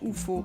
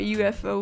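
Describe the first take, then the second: First: The letters are named the Luxembourgish way. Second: The letters are named the English way. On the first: "That's how we say it in Luxembourgish" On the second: "Or U F O, whatever"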